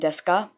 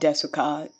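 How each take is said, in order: First: The U vowel in the middle is dropped. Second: The U vowel in the middle is fully pronounced. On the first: The speaker calls it right. "So Ogenki des and deska" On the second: The speaker calls it wrong. "it's not desuka"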